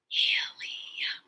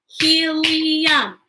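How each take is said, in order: First: HELIUM whispered in three drawn-out beats; whispered syllables. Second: HELIUM aloud in three long, higher beats; broken into syllables. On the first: Teacher leading children through word parts, Helium whispered. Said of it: "Whisper with me". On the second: Teacher asking children to stomp along, Helium drawn out in syllables. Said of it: "Break words into parts". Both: Shown as a demonstration.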